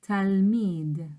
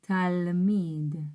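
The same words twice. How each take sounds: No difference in how they are said.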